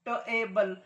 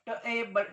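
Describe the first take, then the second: Both takes have the same delivery.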